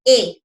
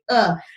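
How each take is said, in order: First: The vowel is a full 'ay' like the letter. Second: The vowel is a short, weak 'uh' sound. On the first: "rather than saying a" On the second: "it's more stylish when you say a"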